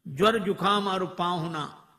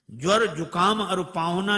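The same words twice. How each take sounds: First: ज्वर जुकाम और पाहुना said measured and firm; first recital. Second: ज्वर jumps up loud, the line rising; ज्वर hit hard and loud on the second time; louder repeat. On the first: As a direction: state the proverb once, steady. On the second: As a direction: repeat the proverb with more punch. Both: Shown as a demonstration.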